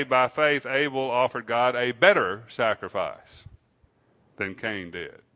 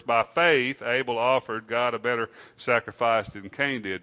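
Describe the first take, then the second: First: "better" punched out as the key word; stress on BETTER. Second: Emphasis on "faith" early in the verse; stress on FAITH. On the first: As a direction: lean hard on "better". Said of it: "the emphasis on the word better". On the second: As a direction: lean on the word "faith". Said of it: "the emphasis on the word faith". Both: Shown as a demonstration.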